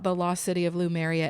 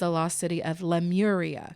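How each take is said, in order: First: The name begins with 'loo' then 'mer'. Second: The name begins with 'leh' then 'moor'. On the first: The speaker calls it wrong. "It is not the lost city of Lumeria" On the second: The speaker calls it right. "It's the lost city of Lemuria"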